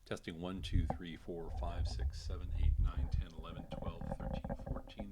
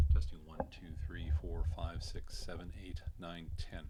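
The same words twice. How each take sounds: First: Said in the usual way. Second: Dull, distant sound from behind mic; off-axis mic. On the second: Shown as a demonstration. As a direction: speak into the back of the mic. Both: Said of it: "This is a hundred and eighty degrees off pattern".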